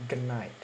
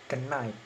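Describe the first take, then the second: The two takes are said the same way.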